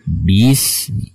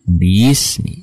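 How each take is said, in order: Both takes have the same delivery.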